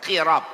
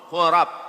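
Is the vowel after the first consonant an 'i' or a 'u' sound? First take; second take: i; u. First: The first vowel is a front 'i' sound. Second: The first vowel is a rounded 'u' sound. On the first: "Bisa juga dibaca pakai kasrah" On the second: "Qafnya dibaca pakai dhammah"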